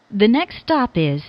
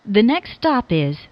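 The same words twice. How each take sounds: The two takes are said the same way.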